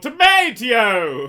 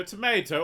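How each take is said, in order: First: Tomato said loud and slow, to-MAY-tee-oh; drawn-out tomato. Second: Tomato said to-MAY-to; tomato with a long ay vowel. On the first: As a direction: stretch tomato out slowly. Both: Shown as a demonstration. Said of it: "Do you pronounce it tomato".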